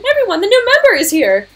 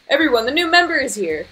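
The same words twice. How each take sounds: First: It is said in Sayori's character voice. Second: It is said in a different, mixed-up voice.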